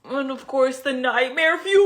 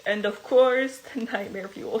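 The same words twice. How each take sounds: First: Bright, punchy announcement; excited. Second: Said in the usual way. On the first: Real, not acted. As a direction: sell the reveal with energy. Retake of intro line.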